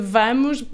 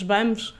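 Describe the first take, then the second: First: The word begins with a v sound. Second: The word begins with a b sound. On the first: This is the standard pronunciation. "em vez de vamos" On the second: This is regional speech used when talking naturally and fast. "nós trocamos os Vs pelos Bs"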